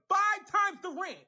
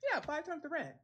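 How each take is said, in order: First: It is said in an outraged tone. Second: It is said in a casual, offhand tone.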